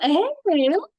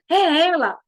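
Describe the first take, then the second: First: It sounds like a surprised, disbelieving question. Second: It sounds like a plain exclamation, not a question.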